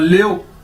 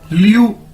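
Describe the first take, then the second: First: It is said as two syllables, 'le-o'. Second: It is said as one gliding syllable, 'lyoo'. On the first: The speaker calls it wrong. "लेओ नहीं पढ़ना, गलत है।" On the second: The speaker calls it right. "ल्यू, ठीक है।"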